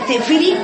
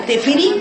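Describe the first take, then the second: No difference in how they are said.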